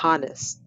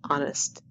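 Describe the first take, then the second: First: The H sound is pronounced. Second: The H sound is silent. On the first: The speaker calls it wrong. "not honest" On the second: The speaker calls it right. "the H is quiet"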